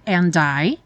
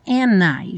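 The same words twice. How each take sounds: First: "and I" with the d said; careful "and I" with the d; full and I. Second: "and I" with the d dropped, n joined to I; linked and I. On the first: Teacher shows the possible form: "and I" with a clear d. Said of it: "você até poderia falar and I". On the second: Teacher shows the usual form: "and I" with no d. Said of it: "já juntado N". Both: Shown as a demonstration.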